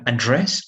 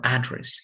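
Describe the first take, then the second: First: "Address" stressed on the last syllable, a-DRESS; second-syllable stress. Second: "address" stressed on the first syllable, AD-dress. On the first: Teacher showing the verb form, "Address" stressed on DRESS. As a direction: put the weight on DRESS in "Address". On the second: Teacher showing the noun form, "address" stressed on AD. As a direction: put the weight on AD in "address". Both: Shown as a demonstration. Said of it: "it depends if it's noun or verb".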